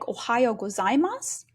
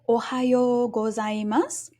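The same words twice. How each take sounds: First: The long vowels are cut short. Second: The long vowels are held full length. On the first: The speaker calls it wrong. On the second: The speaker calls it right.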